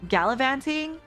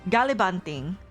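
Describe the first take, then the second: First: The middle consonant is a clear v sound. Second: The middle consonant is a b sound.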